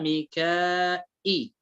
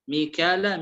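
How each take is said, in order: First: ميكائي with long aa then glottal stop; hamza added in ميكائي. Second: ميكال with an open aa into l; no hamza in ميكال. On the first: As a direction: stretch ميكائي before the hamza. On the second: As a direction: say ميكال without a glottal stop. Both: Shown as a demonstration. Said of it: "يضيف همزة".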